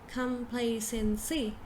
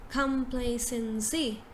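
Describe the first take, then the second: Both takes have the same delivery.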